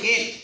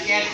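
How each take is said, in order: First: The vowel is an 'ay' sound. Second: The vowel is a short open 'a'. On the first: The speaker calls it wrong. "কেট না" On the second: The speaker calls it right. "ক্যাট কই"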